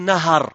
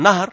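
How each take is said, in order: First: An a vowel is heard between h and r. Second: The h is followed directly by r, no vowel. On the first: The speaker calls it right. "Avec le fath" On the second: The speaker calls it wrong. "avec « Sukun l'ha »"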